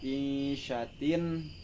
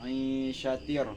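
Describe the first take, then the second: First: The word ends with a clear n sound. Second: The final n becomes an r sound. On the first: The speaker calls it wrong. "bukan dibaca isyatin" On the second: The speaker calls it right. "tetapi isyatir"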